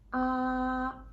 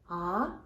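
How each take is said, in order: First: The pitch stays high and level. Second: The pitch rises from middle to high. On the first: "it's on the top line, and the tone mark is very stable" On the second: "from the middle to the top. It's going up"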